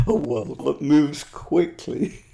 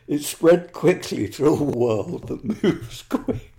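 First: Said in the usual way. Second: Slow, breaking into laughter mid-line; reading while fighting a laugh; stifled giggles. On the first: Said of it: "I'm sorry". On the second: Real, not acted. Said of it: "I'm finding it difficult to keep a straight face".

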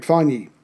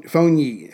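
First: Fonyi with an open AH, like "fawn-yee"; alternative pronunciation. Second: Fonyi with a long O, like "phone-yee"; tentative pronunciation. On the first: Host retrying a donor's name, Fonyi as "fahn-yee". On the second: Host thanking a donor, trying Fonyi as "phone-yee". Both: Shown as a demonstration. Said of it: "if I'm saying that right".

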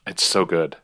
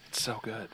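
First: Said in the usual way. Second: Much softer, almost under breath; quiet echo. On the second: Real, not acted. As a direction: murmur it back to yourself. Echoes it far softer.

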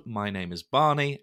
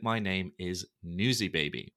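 First: Said in the usual way. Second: Put-on "Newsy Baby" said lower, with a falling finish; sulky lower take on "my name is Newsy Baby"; name dropped low and falling. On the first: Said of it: "if you love the pod". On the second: Shown as a demonstration. Host telling haters his other name, low and falling. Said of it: "if you hate it".

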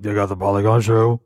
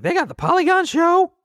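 First: Low, put-on adolescent boy voice; changing teen voice. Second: Very high squeaky imitation of a teenager; mock an excited kid in falsetto; exaggerated kid voice. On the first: Dad correcting his kid impression, lower voice-changing teen. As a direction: imitate a teenager whose voice is dropping. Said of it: "His voice is changing. So he's more like". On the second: Dad imitating his excited thirteen-year-old, exaggerated squeaky kid voice. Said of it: "He doesn't sound like that".

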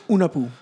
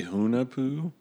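First: Hunapoo with a silent H, oo-nah-poo; Spanish pronunciation. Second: Hunapoo with a breathy English H, hoo-nah-poo; English pronunciation. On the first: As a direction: drop the H: Hunapoo, Spanish style. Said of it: "we say Hunapoo because it's Spanish". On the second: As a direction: sound the H: Hunapoo. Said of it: "I say Hunapoo". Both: Shown as a demonstration.

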